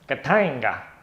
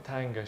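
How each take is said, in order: First: The name is said in a lively, excited way. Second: The name is said flatly, without excitement. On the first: The speaker calls it right. "That's how you say it because it's more fun" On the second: The speaker calls it wrong. "don't, you know, oh, Katanga"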